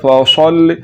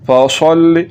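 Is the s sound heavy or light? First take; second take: heavy; heavy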